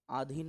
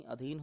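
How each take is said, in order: First: आधीन starting on a long aa, the wrong form; आधीन with a long first vowel. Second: अधीन starting on a short a, the right form; अधीन with a short first vowel; correct short अ. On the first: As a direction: open आधीन with a stretched aa. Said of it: "आधीन नहीं". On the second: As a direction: open अधीन with a quick short a. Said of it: "अधीन होता है". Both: Shown as a demonstration.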